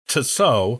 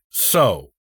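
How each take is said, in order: First: The name begins with a ts sound. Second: The name begins with a plain s sound. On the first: "pronounced phonetically as Tso" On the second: "more like So, without the T sound"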